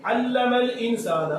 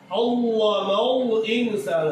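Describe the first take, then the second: First: Slow "علم الانسان" with light, clear lams; thin lam. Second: Very slow "علم الانسان" with heavy, dark lams; wrongly thickened lam. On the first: Shown as a demonstration. Teacher reciting the correct ordinary lam, thin lam. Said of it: "عام لام کی بات نہیں ہو رہی". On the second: Retold or imitated. Teacher imitating the children's mistake, thick lam. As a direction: round "علم" wrongly towards "ollomol". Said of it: "وہ موٹا پڑھا جائے".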